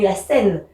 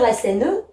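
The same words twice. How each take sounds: First: The final e of Seine is silent. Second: The final e of Seine is pronounced. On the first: The speaker calls it right. "mais la Seine, puisque c'est mon E final" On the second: The speaker calls it wrong. "j'ai pas le droit de dire"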